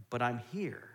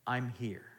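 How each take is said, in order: First: Gentle reassurance. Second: Softer echo. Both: Retold or imitated. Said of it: "And God is like".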